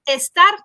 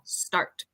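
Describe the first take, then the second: First: An extra e vowel comes before the s. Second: The word begins directly with the s sound. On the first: The speaker calls it wrong. "we don't want to say estar" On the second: The speaker calls it right. "sino start"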